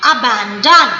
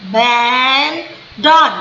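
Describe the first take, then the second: First: Said in the usual way. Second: Abandon drawn out as aaa... baaan... don; slow, slow. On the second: Shown as a demonstration. Teacher telling pupils to say it slowly, abandon split in three. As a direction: stretch each of the three syllables of abandon. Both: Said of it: "आप slow slow बोलिए".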